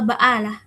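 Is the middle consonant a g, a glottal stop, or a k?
glottal stop. The middle consonant is a glottal stop. "atau baalah gitu"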